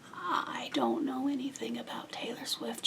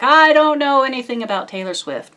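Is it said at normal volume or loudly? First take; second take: normal; loudly. First: It is said at normal volume. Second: It is said loudly.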